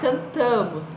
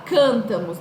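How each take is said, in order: First: The stress is on the middle syllable. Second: The stress is not on the middle syllable. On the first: The speaker calls it right. "a gente fala cantamos. Então, a sílaba mais forte é o tá" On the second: The speaker calls it wrong. "a gente não fala cantamos"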